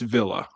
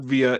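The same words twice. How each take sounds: First: It is pronounced the Italian way. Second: It is pronounced the Spanish way. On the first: The speaker calls it right. "we're going to pronounce Dan's name like a good Italian" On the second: The speaker calls it wrong.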